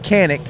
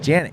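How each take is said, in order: First: The name begins with a hard K sound. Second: The name begins with a J sound. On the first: The speaker calls it wrong. "I'm going to say it wrong first" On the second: The speaker calls it right. "it's pronounced Janik"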